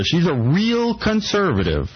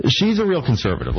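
First: Kata "real" diucapkan pelan dan ditekan; stress on real. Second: Small word "a" gets the weight in "she's a real conservative"; stress on a. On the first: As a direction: lean hard on "real", drawn out. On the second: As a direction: tip the stress onto "a". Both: Shown as a demonstration. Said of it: "Emphasis on the".

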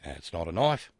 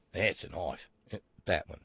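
First: Bad Australian accent, knife rising as if dismissive. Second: Bad Australian accent, firm falling punchline on That's. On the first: Host quotes Crocodile Dundee in a bad Australian accent. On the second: Host delivers the Dundee punchline in a bad Australian accent. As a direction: settle the Australian line down, proud and final. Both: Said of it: "my bad Australian accent portion".

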